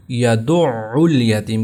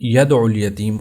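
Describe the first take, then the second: First: یدع الیتیم slow as "ya-du'-'ul-yateem"; یدع الیتیم with a held, squeezed ain; firm shadda. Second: ید الیتیم said lightly as "yad-ul-yateem"; lower-pitched ید الیتیم, middle syllable lost; wrong, no shadda. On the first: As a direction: lean hard on the doubled ain in یدع الیتیم. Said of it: "اس کو سختی سے پڑھنا ہے". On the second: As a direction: run ید الیتیم together, no held ain. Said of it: "وہ اس کو ید ال پڑھتے". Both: Shown as a demonstration.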